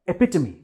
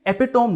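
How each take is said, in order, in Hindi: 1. शब्द 'tuh-mee' ध्वनि पर खत्म होता है। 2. शब्द 'tohm' ध्वनि पर खत्म होता है। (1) "ये है एपिटमी" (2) "ये एपिटोम नहीं है"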